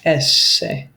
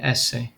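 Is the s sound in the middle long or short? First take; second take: long; short. First: The middle s sound is held long. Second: The middle s sound is short. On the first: The speaker calls it right. "notice I put two S's there" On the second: The speaker calls it wrong. "Notice how I didn't say esse"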